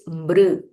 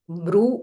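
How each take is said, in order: First: The syllable ends with a vowel-like r sound. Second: The syllable ends with a clear u vowel. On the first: The speaker calls it right. "it is Mr" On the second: The speaker calls it wrong. "This is not Mru"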